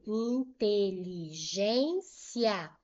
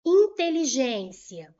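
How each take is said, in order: First: "inteligência" slowly as in-te-li-gên-cia; syllable by syllable. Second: Slow, loud "Inteligência"; loud announcing. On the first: Teacher showing the separation, "inteligência" slowly syllable by syllable. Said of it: "vou separar assim". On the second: Teacher presenting the next example to students, loud announcing. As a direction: put the example word out firmly and loudly. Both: Shown as a demonstration.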